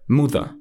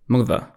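First: It is said in a northern English accent. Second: It is said in a northern English accent.

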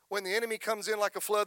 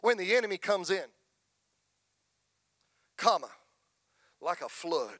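First: It flows without a break after 'comes in'. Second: There is a break after 'comes in'.

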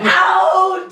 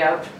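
First: It is said loudly and dramatically. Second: It is said flatly, without drama.

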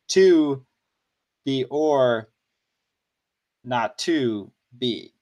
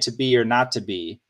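First: Stress falls on to, or, and to. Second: Stress falls on be, not, and be.

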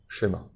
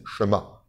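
First: A light e vowel follows the sh. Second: There is no vowel between sh and m. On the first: "ça devient un « et » léger" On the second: "eux, ils disent Shema"

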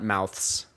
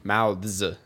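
First: The word ends in an s sound. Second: The word ends in a z sound. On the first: The speaker calls it wrong. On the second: The speaker calls it right. "mouths with a Z at the end"

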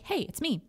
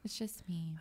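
First: It sounds upbeat, confident and self-assured. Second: It sounds small, deflated and weepy.

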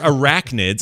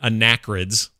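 First: The word begins with the sounds 'arach'. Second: The word begins with the sounds 'anach'. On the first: The speaker calls it right. "I knew they're arachnids" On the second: The speaker calls it wrong. "I knew they weren't anachrids"

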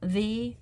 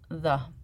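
First: The vowel is long, like 'thee'. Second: The vowel is short, like 'thuh'. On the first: This form is used before a vowel. "before a vowel" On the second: This form is used before a consonant. "Before a consonant"

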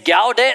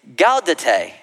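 First: The word is said with two syllables. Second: The word is said with three syllables. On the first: The speaker calls it wrong. "I've been mispronouncing what it's called" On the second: The speaker calls it right. "Three syllables, not two"

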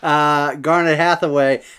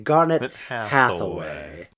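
First: It is said in the speaker's normal voice. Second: It is said in a grand, put-on voice.

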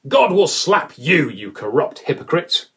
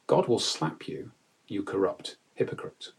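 First: It is said in an angry, heated voice. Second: It is said in a calm, controlled voice. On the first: The speaker has lost his temper. "whether Paul has lost it" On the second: The speaker gives a stern but composed rebuke. "he's saying this calmly"

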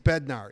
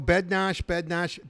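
First: The name is said with a North American pronunciation. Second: The name is said with its Czech pronunciation. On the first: This is how the player himself prefers it. "Bednar in a North American pronunciation" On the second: This is how people in the home country say it. "everybody from the Czech Republic, I know Bednarz"

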